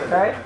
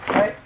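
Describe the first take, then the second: No difference in how they are said.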